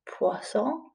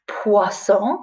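First: Poisson said again much softer, rising; softer repeat. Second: Said in the usual way. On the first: Shown as a demonstration. Teacher repeats the title softly for pupils, Poisson hushed. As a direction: echo Poisson gently. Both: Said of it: "It's called".

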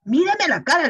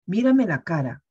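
First: Much higher and louder, a sharp scolding call; stern loud reprimand; raised voice. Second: Said in the usual way. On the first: Retold or imitated. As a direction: raise your voice at the lying child. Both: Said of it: "le levanté la voz ya".

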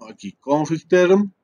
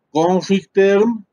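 First: Said in the usual way. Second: Config term, each syllable drawn out slowly; slow dictation. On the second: Shown as a demonstration. Teacher dictating the command to students, slow and deliberate. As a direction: spell out "Config term" slowly for the class to copy.

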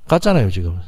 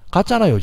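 First: 같잖아요 weighted and lower, then 지금 tacked on; stress on 같잖아요. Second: 같잖아요 sung out much higher, falling off; high exclaimed 같잖아요. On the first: Teacher repeating the point to the class, low stress on 같잖아요. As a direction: lean on 같잖아요 in a low firm voice. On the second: Teacher exclaiming at the class, 같잖아요 pitched high and falling. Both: Shown as a demonstration.

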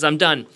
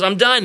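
First: Said in the usual way. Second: High, loud "done"; raised, punchy and keen; eager announcement. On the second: Acted. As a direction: act out a kid proudly calling out he's finished. Boy insists again after two hours.

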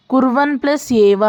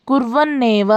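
First: Said in the usual way. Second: కుర్వన్నేవ as one word with a held double n; doubled n sandhi. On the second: Shown as a demonstration. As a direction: join కుర్వన్నేవ, leaning on the nn.

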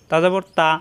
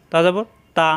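No difference in how they are said.

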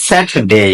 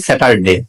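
First: "স্যাটারডে" tightened to "SAT-dey"; correct Saturday. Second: "স্যাটারডে" as "SA-tar-de"; mispronounced Saturday. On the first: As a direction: model "স্যাটারডে" with the middle syllable swallowed. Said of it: "এটা হবে". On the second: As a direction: say "স্যাটারডে" with full middle syllable and short "de". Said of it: "এটা স্যাটারডে হবে না". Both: Shown as a demonstration.

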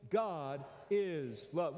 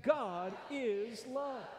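First: Slow drawn-out unison line; slow call-and-response. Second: Higher, slow, emphatic chant; said like you mean it. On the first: Preacher leading the congregation in a slow response. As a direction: lead the room slowly word by word. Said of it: "Will you say that with me?". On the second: Preacher urging the congregation to mean it, emphatic. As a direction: push it out with conviction. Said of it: "say it like you mean it". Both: Shown as a demonstration.

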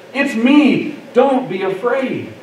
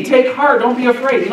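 First: Slow, deliberate, higher-pitched quote; unhurried preacher's quote, settling at the end; measured reassurance. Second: Raised pitch, words run straight on; mock-quote it briskly, without pausing; imagined promise, higher and unbroken; brisk hypothetical reassurance. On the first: Acted. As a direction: let each phrase land separately. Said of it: "He says". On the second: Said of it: "No, he doesn't say that".

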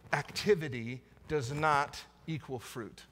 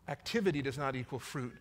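First: Slow, with "not" leaned on hard and falling; stress on not. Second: Softer repeat with "Activity" carrying the weight; stress on activity. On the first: To the congregation, slowly pressing on "not". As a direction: weigh the word "not", drawing the whole line out. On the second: Repeating it to the church, now hitting "Activity". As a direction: lead with "Activity", then let the line settle quietly. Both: Shown as a demonstration.

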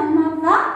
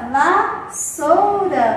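First: Higher, louder reveal of VASSOURA; bright-eyed show-and-tell VASSOURA, voice lifted; excited reveal. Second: VASSOURA stretched very slowly, va-ssou-ra; loud, slow teacher's VASSOURA, syllables held long. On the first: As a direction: announce VASSOURA like a surprise find. Revealing object from surprise box. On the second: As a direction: draw out each syllable of VASSOURA for young spellers. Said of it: "Vamos escrever a palavra vassoura?". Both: Shown as a demonstration.

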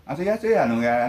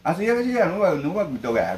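First: Playful Okinawan dialect said Korean-style. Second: Hammed-up Korean-flavoured Okinawan dialect; Okinawan dialect Korean-style. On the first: Retold or imitated. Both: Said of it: "韓国風に沖縄弁使って".

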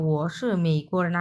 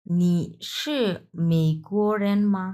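First: ও শি মেইকোরেন read as a plain statement, no question particle; Chinese statement reading. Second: Slow Mandarin question নি শি মেইকোরেন মা, মা as question particle; Chinese question reading. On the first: Teacher contrasts the statement with the question, plain Mandarin statement. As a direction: read ও শি মেইকোরেন as a flat declarative. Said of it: "এর আগেরটাই পড়ে আসলাম". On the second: Teacher reads the Mandarin question aloud for students, slow model reading. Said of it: "এখন আমি এটা একটু পড়িয়ে দেই।". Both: Shown as a demonstration.

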